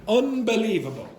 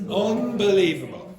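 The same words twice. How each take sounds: Both takes have the same delivery.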